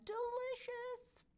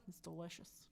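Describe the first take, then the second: First: Very high, slow, sing-song Delicious; Delicious floated up high and dragged out; drawn-out delicious. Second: Low, soft, drawn delicious; delicious murmured low and quiet. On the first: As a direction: stretch Delicious high and slow like a dreamy coo. Savouring a fan's dinner. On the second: Savouring bacon on salad. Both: Pretend.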